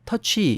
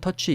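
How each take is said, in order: First: The final 'ee' sound is said clearly and strongly. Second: The final 'ee' sound is weak or barely heard. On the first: It is heard as touch plus y. The speaker calls it right. "이라는 소리를 좀 더 강하게 내줘야 되죠" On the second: It may be misheard as touch. The speaker calls it wrong. "이렇게 약하게 얘기를 하면은 잘못 알아들을 수가 있습니다"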